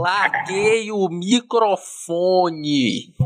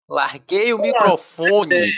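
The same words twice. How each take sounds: First: Extremely slow, dragged syllables; even slower mic drop. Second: Very slow, drawn-out mic drop; drawn-out announcement. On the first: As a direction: drag it out even longer. Repeated mic drop line. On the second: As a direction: stretch every syllable like a mic drop. Joke mic drop line. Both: Pretend.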